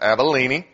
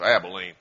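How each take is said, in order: First: Abilene is said in the biblical way. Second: Abilene is said the way Texans say it. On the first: It names the ancient region. The speaker calls it right. "that's actually the correct pronunciation" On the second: It names the city in Texas. The speaker calls it wrong. "It's not like Texas, where it's Abilene"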